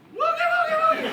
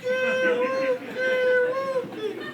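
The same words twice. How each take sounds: First: It is said quickly. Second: It is said very slowly.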